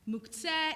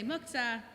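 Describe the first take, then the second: First: It is said in a Modern Hebrew accent. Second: It is said in an Ashkenazi accent. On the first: "in a good modern Hebrew accent"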